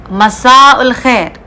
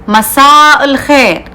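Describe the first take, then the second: The two takes are said the same way.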